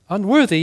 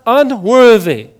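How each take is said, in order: First: Said in the usual way. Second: Unworthy drawn out slowly and louder, falling; slow emphatic unworthy. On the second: Shown as a demonstration. Pastor preaching to the congregation, slow and emphatic. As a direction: lean hard into unworthy.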